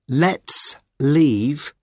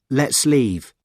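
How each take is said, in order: First: The two words are said separately. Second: The two words run together as one.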